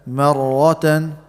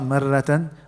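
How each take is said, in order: First: The r sound is heavy and full. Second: The r sound is light and thin. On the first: The speaker calls it right. "so it's going to be heavy" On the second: The speaker calls it wrong. "So not marratan"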